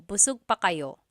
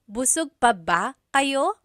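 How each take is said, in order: First: "Busog pa kayo" falling to the end; statement tune. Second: "Busog pa ba kayo" higher, rising on "kayo"; question tune. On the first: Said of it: "turns it into a question". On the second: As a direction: ask "Busog pa ba kayo" with a lifted ending. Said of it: "it turns it into a question". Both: Shown as a demonstration.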